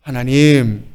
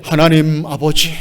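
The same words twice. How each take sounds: First: Tender call. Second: Solemn call. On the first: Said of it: "다정하게". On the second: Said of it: "거룩하게". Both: Shown as a demonstration.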